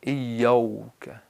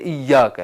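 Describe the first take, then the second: First: The vowel after the 'y' sounds like 'o'. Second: The vowel after the 'y' sounds like 'a'. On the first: The speaker calls it wrong. "अलिफ को वाव में बदलते हैं" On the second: The speaker calls it right. "इय्याका है"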